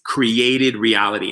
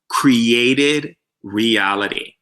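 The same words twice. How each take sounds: First: The phrase is said at a normal speaking pace. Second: The phrase is said slowly and very clearly.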